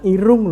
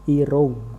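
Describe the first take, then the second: First: The last vowel sounds like a clear 'u'. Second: The last vowel sounds close to 'o'. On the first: The speaker calls it wrong. "Mboten irung lho nggih" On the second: The speaker calls it right. "U menika diwaca o"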